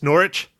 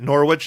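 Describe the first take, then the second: First: The W in the middle is silent. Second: The W in the middle is pronounced. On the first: The speaker calls it right. "it's Norwich? ... silent W" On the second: The speaker calls it wrong. "it wasn't Norwich"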